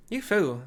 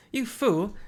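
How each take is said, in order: First: Put-on Irish-accented angry shout; Irish accent, yelled. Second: Angry shout. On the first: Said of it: "No, hold on. Irish". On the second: Acted.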